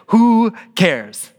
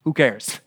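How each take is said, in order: First: WHO drawn out high and loud; emphatic dismissal. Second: Offhand dismissal. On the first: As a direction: punch a long, raised "Who", then drop on "cares". Repeats Paul's reply with emphasis. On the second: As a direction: shrug it off quietly as Paul. Preacher gives Paul's reaction, then repeats it. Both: Retold or imitated.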